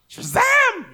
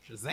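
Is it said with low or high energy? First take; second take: high; low. First: It is said with more oomph and energy. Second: It is said with little energy.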